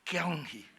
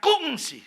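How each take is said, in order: First: "Kyung Hee" low and soft; low-toned Hokkien "Kyung Hee"; low Hokkien intonation. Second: "Kung Si" pitched up high; high-toned Hakka "Kung Si"; high Hakka intonation. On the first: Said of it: "orang Hokkien ngomongnya itu rendah". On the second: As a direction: hit "Kung" on a high note, then fall. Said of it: "ngomongnya nadanya tinggi". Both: Shown as a demonstration.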